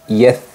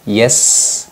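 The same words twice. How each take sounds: First: The consonant is a th sound. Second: The consonant is a plain s sound. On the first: "tertukar dengan huruf tha" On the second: "biasanya tertukar dengan huruf sin berharokat sukun"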